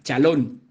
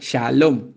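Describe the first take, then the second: First: It begins with a hard ch sound. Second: It begins with a soft sh sound. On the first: The speaker calls it wrong. "muchos de ustedes pronuncian muy mal" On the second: The speaker calls it right.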